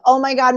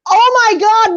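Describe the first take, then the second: First: It is said in a warm, sympathetic tone. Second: It is said in an angry, snapping tone.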